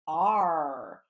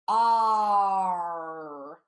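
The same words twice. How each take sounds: First: The sound is said at normal, short length. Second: The sound is held and stretched out long.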